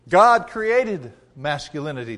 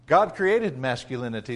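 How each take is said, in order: First: "God" hit hard and held, then a pause on "created"; emphatic restatement. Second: Said in the usual way. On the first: Real, not acted. Preacher repeating his point to the congregation, emphatic restatement. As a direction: drive it home, weight on "God created".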